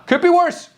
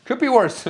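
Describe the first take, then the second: First: A high, sudden mock of a stern mother; mock German mom. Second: A lighter repeat of mom's verdict; lighter mock mom. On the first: Streamer echoing his mom's verdict on him, mock stern. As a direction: echo mom's backhanded praise, mock stern. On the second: Streamer repeating his mom's line, lightly mocking. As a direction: toss it off again, mildly mocking. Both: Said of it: "she told me that I could be worse as a son".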